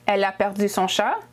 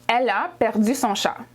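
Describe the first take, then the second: Both takes have the same delivery.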